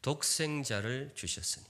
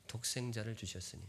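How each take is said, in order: First: 독생자를 stressed and falling; scripture quoted. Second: 독생자를 주셨으니 echoed quietly; softly repeated. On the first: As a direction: read 독생자를 주셨으니 as a verse. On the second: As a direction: let 독생자를 fall softly, reverent. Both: Shown as a demonstration. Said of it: "성경 표현 줄 치세요".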